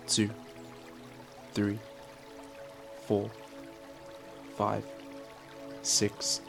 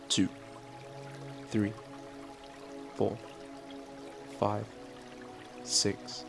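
No difference in how they are said.

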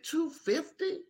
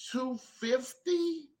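First: High, soft, slow timid question; barely daring to ask the price; scared. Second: Small, timid price ask; nervously floating the price as a question; scared. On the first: Leatherworker retelling his nervous quote, high and timid. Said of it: "I was so afraid". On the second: Leatherworker nervously quoting a customer, soft and scared. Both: Retold or imitated.

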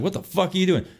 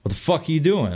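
First: Raised retelling. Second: Said in the usual way. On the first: Retold or imitated. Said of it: "I just word for word". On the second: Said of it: "I get out of the truck and I'm like".

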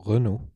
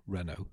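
First: "Renault" said as ruh-NO, French style. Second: "Renault" said as REN-oh; anglicised Renault. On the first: Host showing the native way, "Renault" as French ruh-NO. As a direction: give "Renault" a French R and unstressed first vowel. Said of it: "that I'd say". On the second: Host showing the other way, "Renault" as English REN-oh. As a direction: stress the first syllable of "Renault", REN-oh. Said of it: "instead of Renault". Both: Shown as a demonstration.

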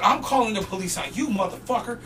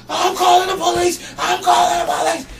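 First: Unshouted comeback in near-normal voice; retold retort. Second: High-pitched mock scream; hysterical threat. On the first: Worker answering the punched bum, controlled retort. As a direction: turn the threat back on him without screaming. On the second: Punched bum threatening the worker, hysterical shout. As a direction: shout it as a hammed-up outraged victim.

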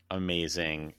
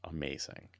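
First: Said in the usual way. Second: Breathy whispered awe, falling; a soft reverent whisper; whispered amazing. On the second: Real, not acted. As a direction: hush it out in awe.

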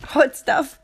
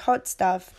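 First: Hot Stuff said higher and louder through a laugh. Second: Said in the usual way. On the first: Shown as a demonstration.

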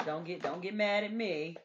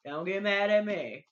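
First: Said in the usual way. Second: Louder, teasing don't-be-mad; playful loud plea. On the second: Acted. Teasing her viewers about church, playful louder plea.

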